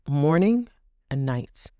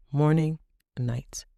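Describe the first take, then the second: No difference in how they are said.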